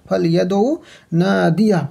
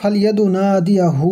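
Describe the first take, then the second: First: The last word ends on a stopped consonant. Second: The last word ends with an added 'hu' vowel. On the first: The reader stops at this word. "এটা হচ্ছে দাঁড়ানোর ক্ষেত্রে" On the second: The reader joins this word to the next. "যদি মিলিয়ে পড়তে চান"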